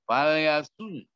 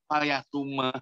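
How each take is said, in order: First: The word ends in a breathy h from the throat. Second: The word ends with an added vowel after m. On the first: The speaker calls it right. "kan agak tintakan" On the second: The speaker calls it wrong. "Orang Jawa itu bacanya fal yasuma"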